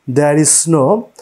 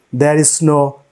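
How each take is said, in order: Both takes have the same delivery.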